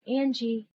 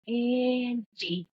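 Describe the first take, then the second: First: Higher, drawn voice saying Angie; voice calling a name. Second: High, long drawn-out taunting Angie; taunting, scary. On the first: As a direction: call Angie as a voice right beside the listener. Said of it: "it would say, "Angie". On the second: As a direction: stretch Angie into an eerie, mocking call. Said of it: "taunting and angry, scary". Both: Retold or imitated.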